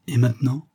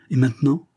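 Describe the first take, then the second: First: Said in the usual way. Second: Higher, triumphant echo of the question; exultant cry, pitched up; triumphant exclamation. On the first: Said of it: "Elle lui dit". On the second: A narrator's reading. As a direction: throw the question back in triumph. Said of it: "s'écria-t-il d'un air de triomphe".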